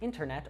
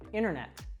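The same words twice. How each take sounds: First: The t sound after the n is pronounced. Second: The t sound after the n is dropped. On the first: "instead of saying" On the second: "we'll actually drop the T sound"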